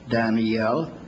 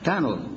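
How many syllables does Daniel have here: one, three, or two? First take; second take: three; one. First: The name is said with three syllables. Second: The name is said with one syllable. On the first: This is the Hebrew form of the name. "the Hebrew word Daniel has three syllables" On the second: This is the American way of saying the name. "Moody pronounced it with one"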